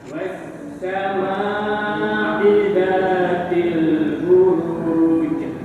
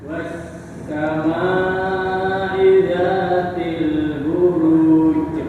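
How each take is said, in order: Both takes have the same delivery.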